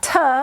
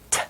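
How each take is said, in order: First: The T sound is drawn out, not clipped. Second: The T sound is short and quick. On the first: The speaker calls it wrong. "sometimes we accidentally try to say T. It's not T" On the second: The speaker calls it right. "it's a short sound and it's just a quick T"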